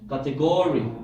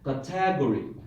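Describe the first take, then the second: First: The stress is on the third syllable. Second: The stress is on the second syllable. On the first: "How the third syllable?" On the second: "Second syllable"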